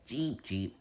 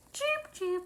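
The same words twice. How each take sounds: First: Said in the usual way. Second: A much higher, tiny squeaked cheep cheep; squeaky bird cheep. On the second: Pretend. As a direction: peep it like a baby chick, way up high. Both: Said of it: "Why are you barking at me?".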